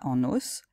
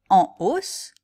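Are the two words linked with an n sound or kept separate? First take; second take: linked; separate. First: An n sound links the two words together. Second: The two words are kept separate with no n link. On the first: The speaker calls it wrong. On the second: The speaker calls it right.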